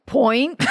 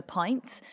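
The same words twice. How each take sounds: First: Imitating a bad put-on Irish accent; exaggerated Irish "point" for pint; mock Irish accent. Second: Said in the usual way. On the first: Mimicking an Englishman's Irish accent when ordering a pint, mock Irish. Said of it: "insisted on doing an Irish accent". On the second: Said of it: "he literally did this".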